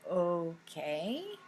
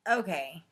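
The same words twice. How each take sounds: First: It sounds puzzled and questioning. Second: It sounds dismissive and disagreeing.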